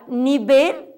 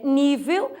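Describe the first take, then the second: First: Nivel said ni-BEL, v as b; Spanish stress. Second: Nível said NÍ-veu; Portuguese stress. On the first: Teacher giving the Spanish word, nivel stressed on the end. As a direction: lean on VEL in nivel. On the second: Teacher giving the Portuguese form, nível stressed on NÍ. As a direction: lean on NÍ in nível. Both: Shown as a demonstration. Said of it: "em português é nível".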